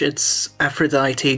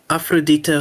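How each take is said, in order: First: The name is pronounced the English way. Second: The name is pronounced the Afrikaans way. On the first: "in English" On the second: "In Afrikaans"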